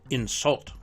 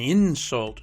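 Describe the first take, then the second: First: The stress is on the second syllable. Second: The stress is on the first syllable. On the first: It is used as a verb. "Two-syllable verbs are stressed on the second syllable" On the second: It is used as a noun. "Two-syllable nouns are stressed on the first syllable"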